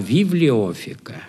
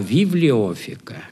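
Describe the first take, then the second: First: The word is said with an f sound. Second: The same.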